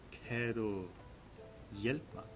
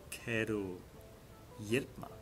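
The two takes are said the same way.

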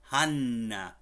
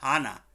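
First: The n sound is long, held double. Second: The n sound is short, said only once. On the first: The speaker calls it right. "Las dos N's ahí" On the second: The speaker calls it wrong. "no se llama Hannah"

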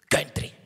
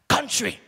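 First: It is said with a Swiss German pronunciation. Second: It is said with a native English pronunciation. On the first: The speaker calls it wrong. "Der Durchschnitt in der Schweiz sagt Country" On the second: The speaker calls it right. "Es heisst Country"

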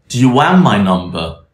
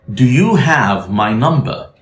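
First: The V sound before 'my' is dropped. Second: The V sound before 'my' is pronounced.

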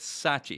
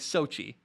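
First: The name is said with a British pronunciation. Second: The name is said with an American pronunciation. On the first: "I would imagine the British way to say that is Sochi" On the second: "the American way is probably Sochi"

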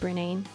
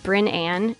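First: The name ends rhyming with the word 'inane'. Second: The name ends with a plain 'Ann' sound. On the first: The speaker calls it wrong. "It sounds like inane" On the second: The speaker calls it right. "my real first name is Bryn Ann"

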